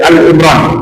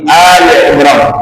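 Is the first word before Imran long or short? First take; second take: short; long. First: The first word is a short 'Al'. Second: The first word is a longer 'Ali'. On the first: It sounds like the article 'the'. The speaker calls it wrong. "jangan dibaca Al Imran" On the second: It means the family of Imran. The speaker calls it right. "tapi Ali Imran. Hanya lebih panjang"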